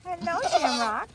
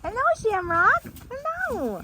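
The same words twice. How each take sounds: First: Higher sing-song hello to the pet; a lighter coo at the animal; pet-talk voice. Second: Much higher sing-song hello; high pet voice. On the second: Greeting animal in pet voice. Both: Real, not acted.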